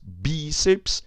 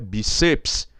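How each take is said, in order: First: The stress falls on the first syllable. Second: The stress falls on the second syllable. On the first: The speaker calls it right. "bi. Aí o I é acentuado" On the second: The speaker calls it wrong. "Do jeito que ela veio é bíceps"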